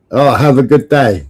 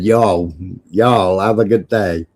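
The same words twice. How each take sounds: First: Mimicking a supposed American sign-off; lightly put-on American accent. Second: Low, drawn-out American y'all; lightly hammed-up American accent; mock American accent. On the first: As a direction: repeat it in a mock American accent. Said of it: "Was that an American accent?". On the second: Shown as a demonstration. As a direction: put on a Southern American sign-off. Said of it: "I would have said".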